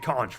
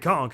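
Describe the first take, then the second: First: The word ends with a ch sound. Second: The word ends with a k sound. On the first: "It should be conch" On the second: "it would be spelled with a K"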